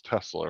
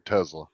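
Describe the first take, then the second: First: Tesla with a hissed S, TESS-la; standard Tesla. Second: Tesla with a buzzing Z, TEZ-la; mispronounced Tesla. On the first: Shown as a demonstration. Reporting a friend's slip, Tesla the standard way with S. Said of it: "couldn't even pronounce Tesla earlier". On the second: Retold or imitated. Mimicking a friend's slip, Tesla said with a Z. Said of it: "He was saying Tesla".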